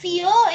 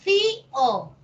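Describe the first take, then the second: First: It is said as one syllable, stressing the o. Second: It is said as two syllables, stressing the i. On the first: "es monosílabo" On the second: "fío sí es una palabra de dos sílabas"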